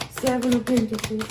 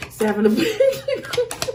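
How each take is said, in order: First: Said in the usual way. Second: Name the card through a laugh, pitched up. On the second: Real, not acted. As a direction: laugh as you say "Seven of Pentacles". Laughing while naming a card.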